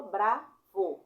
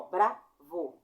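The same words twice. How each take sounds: First: Said in the usual way. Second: "bravo" drawn out very slowly; slow demo. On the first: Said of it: "ó, B, bravo". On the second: Shown as a demonstration. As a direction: stretch "bravo" syllable by syllable. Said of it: "dois golpes de ar". ("bravo" bem devagar, sílaba por sílaba)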